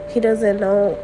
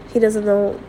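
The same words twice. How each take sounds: The two takes are said the same way.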